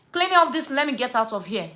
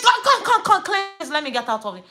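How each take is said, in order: First: Controlled annoyed order, dropping at the end; retold firm demand. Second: Retold exasperated outburst. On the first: Customer refusing the polish, firmly demanding to leave. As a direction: re-enact a curt dismissal. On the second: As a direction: re-enact losing patience completely. Retold quarrel escalates, she lost it.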